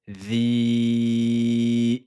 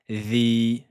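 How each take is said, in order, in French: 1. La voyelle est tenue cinq temps. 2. La voyelle est tenue deux temps. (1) "cinq temps" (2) "deux temps"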